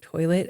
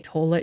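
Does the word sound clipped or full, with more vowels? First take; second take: full; clipped. First: The word is said fully, with more vowels. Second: The word is said clipped, with fewer vowels. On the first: This is the usual way to say it. The speaker calls it right. "there's more like vowels in there" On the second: This is how someone else used to say it. The speaker calls it wrong. "you used to always say toilet"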